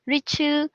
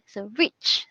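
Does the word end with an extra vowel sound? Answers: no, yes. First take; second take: yes; no. First: An extra vowel sound follows the final consonant. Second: The word ends cleanly on the final consonant. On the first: The speaker calls it wrong. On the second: The speaker calls it right.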